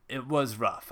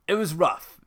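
First: Said in the usual way. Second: "It was rough" said high and loud with weight on it; emphatic. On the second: Real, not acted. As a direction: land hard on "It was rough". Repeats "it was rough" twice.

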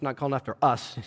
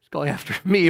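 First: "us" leaned on at the end, low and soft; quiet correction, landing on the word "us"; stress on "us". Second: "me" picked out with a rising tune; stress on "me". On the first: Contrasts us with me in retort. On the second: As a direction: correct it by leaning on "me". Corrects us to me. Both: Retold or imitated.

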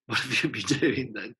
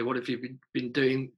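First: Laughing. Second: Said in the usual way. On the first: Retold or imitated. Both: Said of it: "she'd kind of say".

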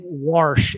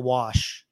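First: "warsh" with an added r before sh; dad's regional pronunciation. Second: Said in the usual way. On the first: Retold or imitated. Host shows how his Missouri dad talks, r in "warsh". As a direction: put a firm r into "warsh". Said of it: "instead of "wash". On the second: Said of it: "instead of".

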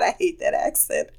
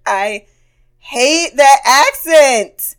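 First: Unvoiced muttered aside; soft breathy grumble; muttered under breath. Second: "hate that accent" drawn out slowly and louder, "that" stressed; slow, deliberate, louder restatement; slow emphatic repeat. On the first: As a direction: say it under your breath to yourself. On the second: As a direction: spell it out slowly with a loud stress on "that". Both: Real, not acted.

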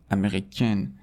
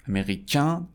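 First: امریکن closing on a sounded N; French feminine امریکن with full final n; non-nasal ending. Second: امریکن rising to a nasal vowel, no N; higher French masculine امریکن, nasalized ending. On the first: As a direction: end امریکن firmly on "-ken". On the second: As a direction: end امریکن through the nose, silent n. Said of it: "به خاطر اینکه توی بینیه". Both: Shown as a demonstration.

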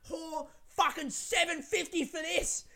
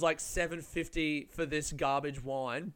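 First: Slow, high-pitched imitated yell; mock yelling. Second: Said in the usual way. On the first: Woman outraged at the wine's price, mock high yelling. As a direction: drag it out high, mimicking her rant. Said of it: "she was yelling". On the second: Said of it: "what she meant was".

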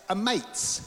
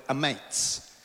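First: High, playful Aussie accent. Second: Said in the usual way. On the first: Shown as a demonstration. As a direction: say it in a higher-pitched Aussie twang. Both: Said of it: "in an Aussie accent".

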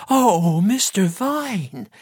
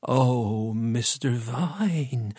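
First: High, drawn-out wail; loud moaning. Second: Slow, soft, drawn-out moan. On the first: Missus Ruddock grieving Mister Vine, high wailing moan. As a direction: wail the name out, much higher and stretched. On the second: Missus Ruddock hearing of the death, moaning softly. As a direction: moan the name in mourning. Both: A narrator's reading. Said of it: "she moaned".

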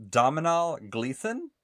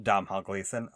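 First: DOMHNALL tried slowly as "DOM-uh-nall", questioning; unsure pronunciation. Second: Domhnall said as "DOM-hall", two syllables, settled; corrected pronunciation. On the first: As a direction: sound out Domhnall in three syllables, rising at the end. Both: Real, not acted. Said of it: "don't know how to pronounce".

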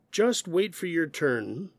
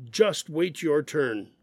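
First: Said in the usual way. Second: Slow, stern scolding with just hit hard; firm, frustrated reprimand. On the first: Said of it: "The first one is more informative". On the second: Shown as a demonstration. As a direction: tell off a child who misbehaved. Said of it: "sounds like somebody misbehaved and they got scolded".

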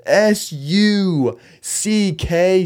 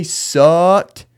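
First: "S U C K" spelled very slowly, letter by letter. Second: Said in the usual way. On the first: Shown as a demonstration. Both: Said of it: "I forgot the E D".

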